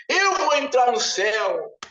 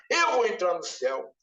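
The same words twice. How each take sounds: First: Loud proud boast; a man loudly boasting he'll get into heaven; boastful claim. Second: Lower, self-assured murmur; the same boast repeated lower, to himself; chest-beating claim. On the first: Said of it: "um falava pro outro assim". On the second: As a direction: beat your chest and say it low. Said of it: "e batia no peito assim". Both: Retold or imitated.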